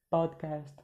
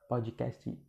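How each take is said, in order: First: The word ends on the consonant with no added vowel. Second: An extra 'ee' vowel is added after the final consonant. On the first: The speaker calls it right. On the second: The speaker calls it wrong.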